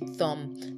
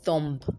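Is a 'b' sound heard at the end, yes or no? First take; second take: no; yes. First: No 'b' sound is heard at the end. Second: A 'b' sound is heard at the end. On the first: The speaker calls it right. "it's a thumb. The B is silent as well" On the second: The speaker calls it wrong. "Not a thumb"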